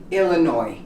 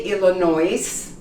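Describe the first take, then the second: First: Illinois ending in "noy"; silent final S. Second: Illinois wrongly ending in a "noyz" sound; sounded final S. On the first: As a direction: drop the S at the end of Illinois. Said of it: "you say Illinois". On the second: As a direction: voice the S at the end of Illinois. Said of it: "You don't say Illinois". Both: Shown as a demonstration.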